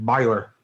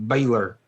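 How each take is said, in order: First: Baylor said as BUY-ler; southern pronunciation. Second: Baylor said as BAY-ler; a clear "bay" opening Baylor; Yankee pronunciation. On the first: Teacher explaining why down south it's Baylor, as BUY-ler. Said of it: "It's B A Y". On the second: Teacher explaining the spelling it ain't, Baylor as BAY-ler. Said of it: "it ain't spelled B A I L". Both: Shown as a demonstration.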